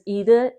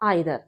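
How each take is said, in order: First: The first vowel sounds like "ee". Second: The first vowel sounds like "eye". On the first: "it can be pronounced as ईदर" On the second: "it can be pronounced as आइदर"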